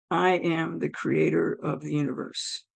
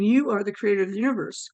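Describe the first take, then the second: First: Low, measured, solemn pronouncement; voice of God. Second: Said in the usual way. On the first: Retold or imitated. God to the newly dead woman, solemn and low. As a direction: intone it lower and softer, with authority. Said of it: "And I hear". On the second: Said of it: "as I'm saying".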